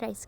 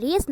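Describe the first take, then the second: First: Rice, said with the long eye vowel like the grain, as the mistake; rice, marked as the wrong way; wrong pronunciation. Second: Race, said like the English word race, rhyming with face; race, clear long ay sound; correct pronunciation. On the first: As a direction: say rice with the eye sound, as the reading to avoid. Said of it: "not rice". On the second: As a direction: say race with the long ay vowel, as the right reading. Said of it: "the correct pronunciation of the, of this word is". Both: Shown as a demonstration.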